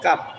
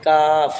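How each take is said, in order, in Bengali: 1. শব্দটি p ধ্বনি দিয়ে শেষ হয়। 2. শব্দটি f ধ্বনি দিয়ে শেষ হয়। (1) "কাপ বললে কিন্তু শব্দটা অশুদ্ধ হবে, ... এরকম যেন না হয়" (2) "হ্যাঁ কাফ এরকম উচ্চারণ হবে"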